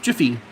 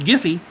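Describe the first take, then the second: First: It begins with a soft J sound. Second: It begins with a hard G sound. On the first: The speaker calls it right. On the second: The speaker calls it wrong.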